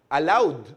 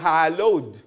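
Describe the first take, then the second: First: The word begins without an h sound. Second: The word begins with an h sound. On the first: The speaker calls it wrong. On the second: The speaker calls it right.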